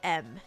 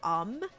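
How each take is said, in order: First: The filler begins with an 'eh' vowel. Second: The filler begins with an 'uh' vowel. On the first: "I say M. Like E M instead of U M" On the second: "I don't say um"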